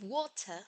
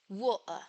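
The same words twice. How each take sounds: First: The t is a plain t with no glottal closure. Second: The t comes with an added glottal closure. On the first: "Instead of water" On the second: "accompanied by a glottal reinforcement"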